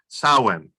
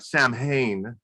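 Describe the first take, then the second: First: It is pronounced the traditional Gaelic way. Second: It is pronounced the common American way. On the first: The speaker calls it right. "correct pronunciation is" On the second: The speaker calls it wrong. "in the United States we call it"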